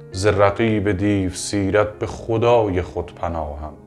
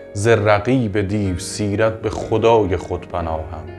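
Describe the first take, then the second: The two takes are said the same way.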